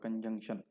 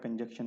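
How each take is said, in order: First: The n sound is clearly pronounced. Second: The n sound is dropped from the word. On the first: The speaker calls it right. "कंजंक्शन में एन लाजमी बोलना होता है" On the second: The speaker calls it wrong. "कंजंक्शन नहीं होता"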